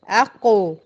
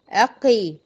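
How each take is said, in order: First: The q sound is followed by a u vowel. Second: The q sound is followed by an i vowel. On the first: "ما اقولش اق اقي اقو" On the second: "ما اقولش اق اقي اقو"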